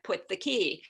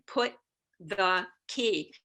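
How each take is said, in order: First: Rapid, with the T blended into the TH. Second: Slow, with the T of put fully articulated. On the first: "if I say it all together as a rapid three syllable combination" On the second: "if I slow it down, I hit the mark and there is no co-articulation"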